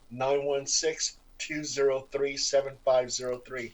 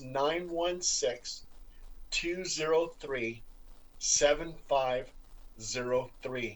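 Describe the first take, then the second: First: The number is said at a faster pace. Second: The number is said at a slower pace.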